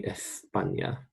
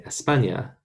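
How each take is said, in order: First: España as they say it in Spain; Castilian Spanish. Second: España with an s-free Latin American sound; España, Latin American style. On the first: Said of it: "But in Spain, they say". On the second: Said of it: "In Latin America, we say". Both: Shown as a demonstration.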